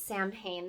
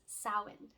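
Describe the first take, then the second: First: It is said the common anglicized way. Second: It is said the Celtic way. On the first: The speaker calls it wrong. "That is an incorrect pronunciation" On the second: The speaker calls it right. "The Celtic pronunciation of this holiday"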